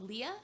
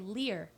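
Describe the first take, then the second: First: The name ends in a plain vowel. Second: The name ends with an added r sound. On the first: This is how the name is normally said. The speaker calls it right. "instead of saying Leah" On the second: This is how someone else mispronounced the name. The speaker calls it wrong. "he would say Lear"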